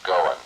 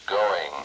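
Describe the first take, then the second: First: The ending is clipped, dropping the final g. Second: The ending is said fully with the final g. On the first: The speaker calls it wrong. "not going" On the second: The speaker calls it right. "it's going"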